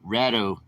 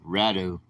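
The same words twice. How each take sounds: First: The first vowel is a short 'a' sound. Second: The first vowel is a short 'a' sound.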